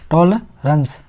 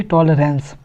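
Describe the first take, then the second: First: टॉलरेंस as "TOL-runs", second vowel reduced; measured "tol... runs" for टॉलरेंस; correct pronunciation. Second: टॉलरेंस as "tol-RENS", with a full "e"; slower "tol-rens" for टॉलरेंस; wrong pronunciation. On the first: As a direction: say टॉलरेंस with a short "ruh", not "reh". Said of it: "मगर इसका सही उच्चारण क्या है?". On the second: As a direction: show the mistaken "ren" in टॉलरेंस. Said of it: "ना कि टॉलरेंस।". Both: Shown as a demonstration.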